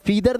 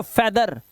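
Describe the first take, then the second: First: फीदर with a long ee, like "feeder"; फीदर said as fee-dhur, the mistake to avoid; wrong pronunciation. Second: फेदर with a short e, like "fedder"; फेदर said as feh-dhur, never fee-dhur; correct pronunciation. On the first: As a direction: stretch the ee in फीदर. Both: Shown as a demonstration. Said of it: "फीदर नहीं".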